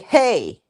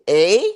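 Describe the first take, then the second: First: The word begins with an h sound. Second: The word begins without an h sound. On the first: This is how Americans say it. "like with the H" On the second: This is how Canadians say it. "you just say it without the H"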